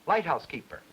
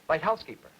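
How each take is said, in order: First: The strongest stress falls on light. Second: The strongest stress falls on house.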